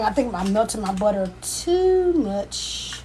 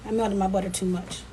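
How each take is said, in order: First: Long stretched "too", pitch held up then falling; drawn-out TOO. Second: Said in the usual way. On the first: Real, not acted. Cook sees the butter over-melted, "too" drawn out long. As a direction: draw out "too" in slow dismay.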